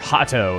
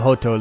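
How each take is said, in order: First: The town name is said the English way. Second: The town name is said the Japanese way. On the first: "as they call it" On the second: "I like me the Japanese pronunciation"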